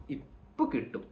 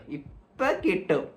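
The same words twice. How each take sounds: First: Hushed ഇപ്പൊ കിട്ടും; ഇപ്പൊ കിട്ടും softened, falling away; change of tone. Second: Stretched-out ഇപ്പൊ കിട്ടും; ഇപ്പൊ കിട്ടും voiced and drawn out; change of tone. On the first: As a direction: say ഇപ്പൊ കിട്ടും softly under the breath. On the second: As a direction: drag ഇപ്പൊ കിട്ടും slowly. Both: Shown as a demonstration. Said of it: "ഈ tone മാറിയ".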